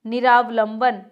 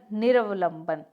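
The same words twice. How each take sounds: First: निरावलंबन with long "raa", louder; incorrect form. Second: निरवलंबन with short "ra"; correct form. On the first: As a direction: say निरावलंबन as "niraa-valamban". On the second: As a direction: say निरवलंबन as "nira-valamban". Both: Shown as a demonstration. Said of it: "अना नहीं होता".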